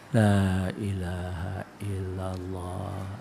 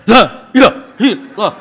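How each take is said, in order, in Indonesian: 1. Diucapkan dengan pelan dan lambat. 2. Diucapkan dengan keras dan tegas. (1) "Berzikirlah kamu lamat-lamat"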